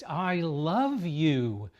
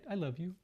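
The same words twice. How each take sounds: First: It is spoken slightly louder than normal, excitedly. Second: It is spoken at normal conversational volume. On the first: "their voice goes just above normal indoor voice" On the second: "in a normal voice"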